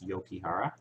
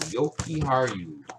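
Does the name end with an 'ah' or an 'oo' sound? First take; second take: ah; oo. First: The name ends with an 'ah' vowel. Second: The name ends with an 'oo' vowel. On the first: The speaker calls it wrong. "There's no A, but I think it's Yokihara" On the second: The speaker calls it right. "So it is the U at the end"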